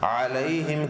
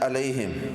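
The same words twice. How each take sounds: First: The word begins with a throaty ain sound. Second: The word begins with a plain glottal stop. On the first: The speaker calls it right. "अलैहिम की बजाय" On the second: The speaker calls it wrong. "अइन की जगह क्या पढ़ जाते हैं, हमजा"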